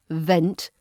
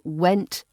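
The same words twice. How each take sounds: First: "vent" with a clear V; V sound. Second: "went" with a clear W; W sound. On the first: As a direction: say "vent" starting on a V, not a W. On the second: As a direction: say "went" starting on a rounded W, not a V. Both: Shown as a demonstration. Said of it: "minimal pairs of W and V".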